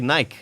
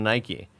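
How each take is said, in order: First: It is said the European way. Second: It is said the American way. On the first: This is how people there say it. The speaker calls it wrong. "they also say Nike" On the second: This is how people here say it. The speaker calls it right. "instead of Nike"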